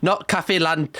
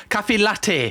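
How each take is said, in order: First: "cafe lan-" mit n statt t, wie Laterne; wrong latte. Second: Said in the usual way. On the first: Shown as a demonstration. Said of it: "Not lantern".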